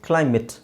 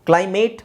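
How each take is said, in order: First: The last syllable sounds like 'it'. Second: The last syllable rhymes with 'ate'. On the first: The speaker calls it right. "Actually it is" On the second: The speaker calls it wrong. "ಕ್ಲೈಮೇಟ್ ಅಂತ ಹೇಳ್ತೀವಿ ನಾವು"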